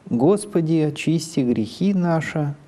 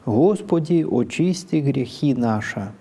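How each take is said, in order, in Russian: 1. Начальный G смычный, гласные редуцированы. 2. Начальный G щелевой, гласные O не редуцированы. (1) "в литературном произношении" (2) "в церковном произношении"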